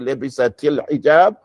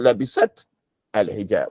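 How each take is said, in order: First: An i vowel links labisat to the next word. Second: Labisat ends on t with no added vowel. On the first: "You have to say" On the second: "which is easier"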